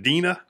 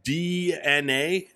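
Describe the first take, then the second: First: The name is said as one two-syllable word. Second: The name is said as three separate letters. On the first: The speaker calls it wrong. "it's not Dina" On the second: The speaker calls it right. "is that how you pronounce this?"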